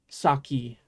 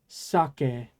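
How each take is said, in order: First: The final vowel is an 'ee' sound. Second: The final vowel is an 'eh' sound. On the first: The speaker calls it wrong. "not saki. I know people pronounce it saki in English" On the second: The speaker calls it right. "the alcohol in Japan is sake"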